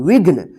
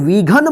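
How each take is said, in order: First: No vowel is sounded between gh and n. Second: An 'a' vowel is sounded between gh and n. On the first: The speaker calls it right. "घ पे देखिए जल्दी उच्चारण हो रहा है" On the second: The speaker calls it wrong. "इसको विघन मत पढ़िएगा"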